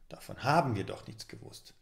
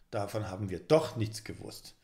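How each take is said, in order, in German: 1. Die Betonung liegt auf dem Wort haben. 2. Die Betonung liegt auf dem Wort doch.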